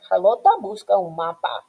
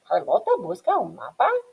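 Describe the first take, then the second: First: The voice falls at the end. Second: The voice rises at the end. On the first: It states a fact. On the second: It asks a question.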